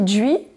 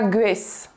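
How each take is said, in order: First: Vannetais pronunciation, starting with a palatalized dj sound. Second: Standard KLT pronunciation, starting with a hard g. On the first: "en Vantais, on pourra dire aussi djuei, mais aussi" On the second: "en K L T standard, on dira"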